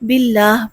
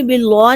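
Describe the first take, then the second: First: The word ends with an audible 'h' sound. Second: The word ends without a final 'h' sound. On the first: The speaker calls it right. "बल्कि बिल्लाह पढ़ना है" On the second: The speaker calls it wrong. "बिल्ला नहीं पढ़ना"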